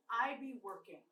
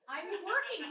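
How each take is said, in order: First: Said in the usual way. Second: "I be working" pitched up and punched; emphatic punchline. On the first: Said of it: "passed the room and it said". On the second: Shown as a demonstration. Comic repeating "I be working" for the audience, emphatic punchline. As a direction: hit "I be working" higher, so they get it.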